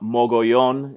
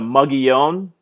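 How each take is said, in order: First: The name is said the Spanish way. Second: The name is said the local English way. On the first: This is how it is said in Spanish. "in Spanish" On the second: This is how people in the region say it. "that's the correct uh, pronunciation for that in the region"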